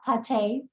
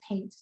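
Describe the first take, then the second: First: The name is said with a French-style sound. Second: The name is said with a plain English sound. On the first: The speaker calls it wrong. "not Pate. Everybody tries to do that to me and add the French accent" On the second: The speaker calls it right. "It is Pate"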